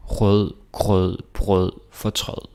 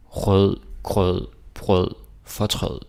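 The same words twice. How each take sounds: The two takes are said the same way.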